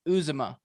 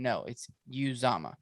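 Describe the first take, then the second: First: "Uzomah" said OO-zuh-muh; mispronounced name. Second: "Uzomah" said you-ZAH-muh; corrected pronunciation. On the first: Retelling the ex-teammate's mistake on video, mispronounced name. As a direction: stress the front of "Uzomah", weak middle. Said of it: "He was like". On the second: Retelling the player correcting his name, corrected pronunciation. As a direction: open "Uzomah" with a you sound, stress the middle. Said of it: "it broke out to C J saying". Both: Retold or imitated.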